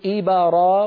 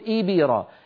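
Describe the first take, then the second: First: The b leans toward an a vowel. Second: The b leans toward an i vowel. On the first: "إن قلنا إبرا فنكون قد ميلناها إلى الفتح" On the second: "جعلنا الباء شبه مكسورة"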